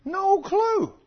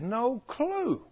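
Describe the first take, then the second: First: "No clue" flung out much higher and louder; stress on CLUE. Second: Slow emphasis. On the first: Preacher echoing his point: "No clue" high and loud. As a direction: hit "clue" high and hard like disbelief. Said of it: "He'd had no clue". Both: Shown as a demonstration.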